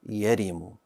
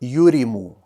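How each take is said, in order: First: The first syllable has the vowel a. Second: The first syllable has the vowel u. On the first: The speaker calls it right. "Correct pronunciation" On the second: The speaker calls it wrong. "I pronounced the ya with a dhamma. I said you"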